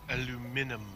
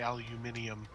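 First: It is said in a mangled, non-British way. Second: It is said in a British way. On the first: The speaker calls it wrong. "I don't know why I bastardized that" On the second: The speaker calls it right. "like the British say"

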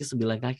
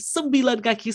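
First: It is said plainly, without extra emphasis. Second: It is said with strong added emphasis.

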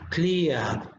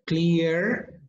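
First: It is said with a British accent. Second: It is said with an American accent.

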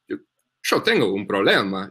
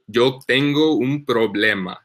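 First: It is said in an Argentine accent. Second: It is said in a neutral accent.

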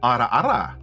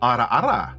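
First: The R sound has one quick trill. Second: The same.

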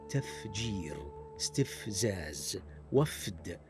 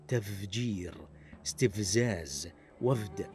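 First: The f sound is clearly voiceless. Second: The f sound is voiced, like v. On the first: The speaker calls it right. "والصحيح تفجير استفزاز وفد بإيضاح صوت الفاء وصفته المهموسة" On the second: The speaker calls it wrong. "فينطقها بعضهم هكذا"

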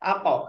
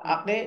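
First: The final q bounces with an upward echo. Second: The final q trails into an e-like vowel. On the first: The speaker calls it right. "উপরের দিকে" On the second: The speaker calls it wrong. "আকে এভাবে নয়"

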